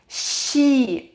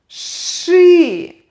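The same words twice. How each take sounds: First: The sh sound is soft, palatalized. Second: The sh sound is hard, not softened. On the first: The speaker calls it wrong. "We can't, we can't read it like she" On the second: The speaker calls it right. "we will pronounce this sound hard anyway"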